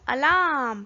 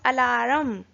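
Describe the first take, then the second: First: The R sound is left silent. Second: The R sound is clearly pronounced. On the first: The speaker calls it right. "We pronounce it as alarm" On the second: The speaker calls it wrong. "We don't pronounce it as alarm"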